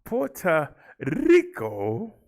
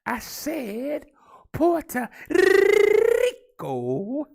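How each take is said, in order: First: "Puerto Rico" with a trilled R in "Rico", slow and loud; trilled Spanish R, drawn out; rolled R. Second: "Puerto Rico" with a long trilled R, very high, very loud and very slow; over-the-top rolled R, shouted high; big rolled R. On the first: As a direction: roll the R in "Rico" hard. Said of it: "Come on, let's roll that R". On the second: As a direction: belt out "Rico" with a huge trilled R. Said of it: "we can do better than that". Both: Shown as a demonstration.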